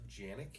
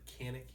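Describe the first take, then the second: First: The name is said the Turkish way. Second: The name is said the American way. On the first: "I believe in Turkey it's pronounced Janik" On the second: "We pronounce it Canik here in the United States"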